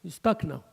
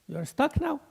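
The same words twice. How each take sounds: First: Said in the usual way. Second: "now" held and stretched, pitched up; stress on now. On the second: Shown as a demonstration. Sheikh teasing the audience about being stuck, stressing "now". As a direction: lean on the word "now" as a teasing repeat.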